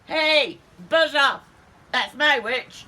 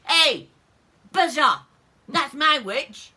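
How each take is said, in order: First: Loud, high monster shriek; shrieking monster again. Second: Loud, high yowling monster voice; shrieking monster. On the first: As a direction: yowl it like the beast. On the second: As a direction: yowl it out like a beast. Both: Acted. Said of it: "its terrible voice ... was a yowl and a shriek".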